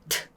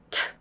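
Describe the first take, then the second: No difference in how they are said.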